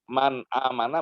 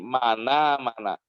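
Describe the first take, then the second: First: A glottal stop separates the two words. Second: The n links straight into the vowel.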